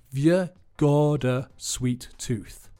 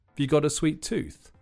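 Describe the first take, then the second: First: It is said slowly. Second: It is said at normal speed.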